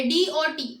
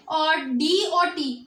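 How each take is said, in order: First: Said in the usual way. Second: Letters stretched out slowly, one by one; slow spelled-out letters. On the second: Shown as a demonstration. (धीरे-धीरे अक्षर बोलना) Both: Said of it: "अब ये दो words आ गए".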